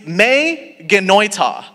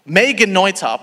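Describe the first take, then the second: First: "Me genoita" said slowly as may-guh-NOY-tah; careful slow reading of "Me genoita"; Greek phrase read out. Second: Said in the usual way. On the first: Shown as a demonstration. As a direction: spell out "Me genoita" syllable by syllable, slowly. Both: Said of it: "That reads".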